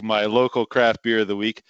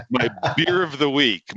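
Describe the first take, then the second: First: Craft leaned on as the correction; stress on craft. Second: Said in the usual way. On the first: Real, not acted. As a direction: hit the word craft.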